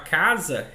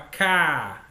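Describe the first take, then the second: First: The word is said whole, with the z sound. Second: The z sound and final syllable are dropped. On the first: The speaker calls it right. "Quando eu falava casa" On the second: The speaker calls it wrong. "ela apagava o z"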